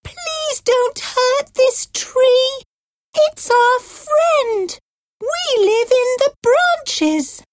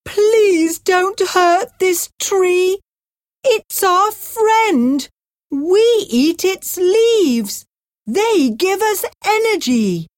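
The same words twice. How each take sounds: First: Pleading birds. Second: Pleading giraffe. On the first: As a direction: plead like tiny birds for their home. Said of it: "The birds cried". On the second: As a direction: beg the man to stop for the giraffe. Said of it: "The giraffe cried". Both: A narrator's reading.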